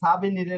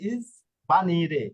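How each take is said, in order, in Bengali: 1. শব্দটি সাধারণ s ধ্বনি দিয়ে শুরু হয়। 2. শব্দটি 'iz' ধ্বনি দিয়ে শুরু হয়। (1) "না" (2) "এখানে এস এর উচ্চারণটা হয়ে যাবে ইজ"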